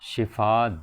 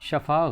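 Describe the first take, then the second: First: The first syllable has an 'i' vowel. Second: The first syllable has an 'a' vowel. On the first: The speaker calls it right. "शिफा दुरुस्त है" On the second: The speaker calls it wrong. "शफा गलत है"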